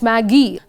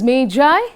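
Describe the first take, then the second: First: The word sounds like the name Maggie. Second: The word does not sound like Maggie. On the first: The speaker calls it wrong. "not Maggie" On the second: The speaker calls it right. "it's pronounced as Magi"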